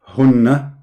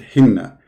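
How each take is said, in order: First: The first vowel is a 'u' sound. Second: The first vowel is an 'i' sound. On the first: The speaker calls it right. "the dhamma, that will make it hunna" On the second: The speaker calls it wrong. "When you put kasra, that will make it hinna"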